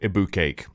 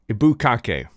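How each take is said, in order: First: It is said in a plain English accent. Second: It is said in a Japanese-style accent.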